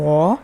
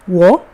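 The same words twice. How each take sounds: First: The pitch dips low, then rises. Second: The pitch rises from mid to high. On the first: "if it's the third sound" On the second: "if it's the second one"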